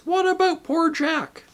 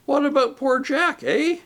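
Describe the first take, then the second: First: Outraged demand. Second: Rising, indignant jab at the name Jack; indignant question. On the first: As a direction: hurl the question at the murderer. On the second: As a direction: needle him about Jack. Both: A narrator's reading. Voices the big ghost.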